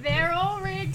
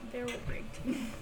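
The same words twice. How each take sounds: First: It is said louder. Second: It is said at normal, quieter volume.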